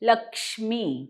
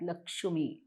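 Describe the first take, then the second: First: A half क्ष joins straight into मी. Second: A vowel separates the क्ष sound from मी. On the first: The speaker calls it right. "ह क्ष अर्धा आणि मी" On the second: The speaker calls it wrong. "बरेच जण लक्ष्मी म्हणतात, लक्ष्मी चूक आहे"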